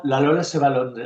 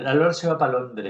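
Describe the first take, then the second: First: Said in the usual way. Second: Pa Londres, para shortened to pa; clipped colloquial title. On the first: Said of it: "la Lola se va pa Londres". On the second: Shown as a demonstration. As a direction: say pa Londres like a llanito.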